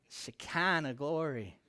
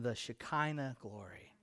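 First: It is drawn out in a preacher voice. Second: It is said in a plain speaking voice.

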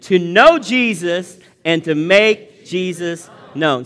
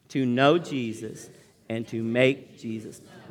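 First: It is said in a lively, energetic way. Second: It is said in a flat, low-energy way. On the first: The speaker calls it right. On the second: The speaker calls it wrong.

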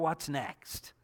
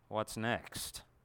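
First: It sounds eager and hopeful. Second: It sounds weary and full of dread. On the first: The future is looked forward to. "I just can't wait to see what's going to happen next" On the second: More trouble is expected. "other days when it feels like"

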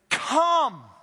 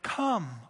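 First: It is said as a forceful command. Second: It is said gently and peacefully.

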